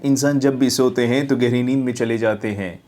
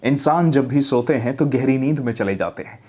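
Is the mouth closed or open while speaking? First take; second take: closed; open. First: It is spoken with the jaw nearly closed. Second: It is spoken with the mouth opened wide. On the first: The speaker calls it wrong. "मुंह आप खोल के नहीं बोल रहे, jaw बंद करके बोल रहे हैं" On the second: The speaker calls it right. "मतलब मुंह खोलिए बोलते हुए"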